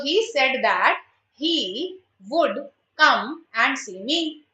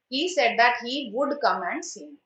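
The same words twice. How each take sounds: First: Slow, word by word, as if dictating; drawn-out teacher read of the answer; slow dictation. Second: Said in the usual way. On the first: Shown as a demonstration. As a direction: spell the answer out slowly for the class. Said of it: "teacher dictating the correct answer". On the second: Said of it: "teacher repeats the answer normally".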